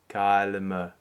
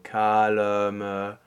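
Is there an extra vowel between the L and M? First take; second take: no; yes. First: The L runs straight into the M. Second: A short schwa sounds between the L and M. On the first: "eventually you take that schwa out entirely" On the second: "add a little bit of a shadow vowel or a schwa"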